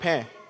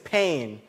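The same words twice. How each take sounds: First: It is pronounced like the French word for bread. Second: It is pronounced like the English word pain. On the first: The word means bread. "the same spelling of bread in French" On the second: The word means physical hurt. "I'm speaking English, so it has to be English"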